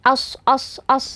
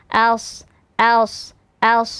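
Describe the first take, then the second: First: The s sound is light and thin. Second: The s sound is heavy and thick. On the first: The speaker calls it wrong. "jangan sampai menjadi as as as" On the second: The speaker calls it right. "shadnya tebal ya"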